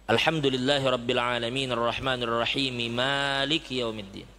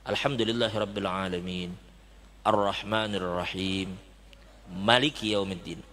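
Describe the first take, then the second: First: It is read as one connected flow. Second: It is read with pauses between the phrases. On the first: "apabila kita baca sambung" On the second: "apabila kita ingin membacanya Maliki Yaumiddin, maka kita putus itu"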